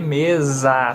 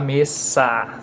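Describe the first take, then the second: First: The middle consonant is a buzzing z sound. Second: The middle consonant is a hissing s sound. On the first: The speaker calls it right. "você lê mesa" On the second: The speaker calls it wrong. "você não fala mesa"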